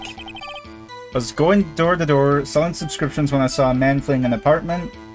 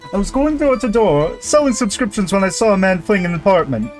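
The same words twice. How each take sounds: First: It is read in the speaker's normal voice. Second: It is read in a put-on character voice.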